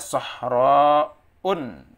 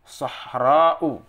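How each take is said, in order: First: The word ends in a vowel plus n. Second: The word ends in a plain vowel. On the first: The speaker calls it wrong. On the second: The speaker calls it right.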